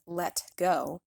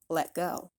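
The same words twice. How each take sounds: First: The T in let is audibly released. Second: The T in let is a glottal stop. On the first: The speaker calls it wrong. "We don't want to hear a release on that T. It shouldn't sound like let go" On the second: The speaker calls it right. "pronounce it like let go, let go, creating a stop of air with the throat"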